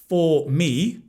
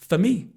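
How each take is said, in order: First: The word 'for' has a full vowel. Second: The word 'for' has a reduced weak vowel.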